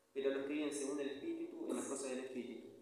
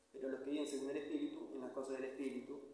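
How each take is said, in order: No difference in how they are said.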